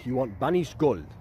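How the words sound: It is said with a Spanish accent.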